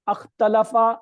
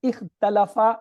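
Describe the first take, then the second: First: The first vowel is an 'a' sound. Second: The first vowel is an 'i' sound. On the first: "कहीं पे मैं अलिफ के ऊपर जबर लाया हूं? क्या मैंने ऐसे किया था?" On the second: "फिर सुनिए"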